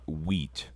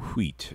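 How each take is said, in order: First: The word begins with a plain 'w' sound. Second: The word begins with a breathy 'hw' sound. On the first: The speaker calls it wrong. "It's not wheat" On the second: The speaker calls it right. "There's a H in it. That means there's aspiration"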